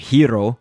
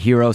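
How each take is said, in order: First: The R sound in the name is rolled. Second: The R sound in the name is plain. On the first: "where you roll your R" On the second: "so that I can say it quickly"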